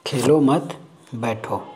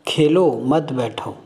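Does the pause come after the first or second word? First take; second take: second; first. First: The pause comes after the second word. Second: The pause comes after the first word. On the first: Do not play, sit down. "ये हो गया बैठो" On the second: Keep playing, do not sit down. "मतलब आप खेलते रहो, बैठने की ज़रूरत नहीं है"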